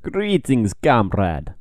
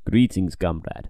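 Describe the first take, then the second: First: Put-on a weak Russian accent; half-hearted Russian greeting. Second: Put-on slow, lower Russian accent. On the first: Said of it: "that was a terrible Russian accent". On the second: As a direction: drawl it in a mock Russian accent. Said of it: "I can do a better one".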